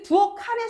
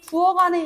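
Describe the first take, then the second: First: The final consonant links as an aspirated k sound. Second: The final consonant links as a plain g sound. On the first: The speaker calls it wrong. "이상하죠" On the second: The speaker calls it right. "요렇게 발음이 돼야 된다는 거야"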